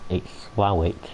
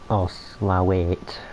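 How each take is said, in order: First: It is pronounced short, ending in Slowit. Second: It is pronounced fully, ending in Slowate. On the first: The speaker uses the local pronunciation. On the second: The speaker is being fancy about it. "if you want to be fancy about it and not drop"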